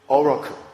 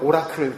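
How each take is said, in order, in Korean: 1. 영어식 모음 발음으로 말합니다. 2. 한국식으로 모음을 하나하나 또렷이 발음합니다. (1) "발음이 뭐 이상해서 여러분들이 못 알아들을지 모르지만" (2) "한국 분들은 오라클 그러죠"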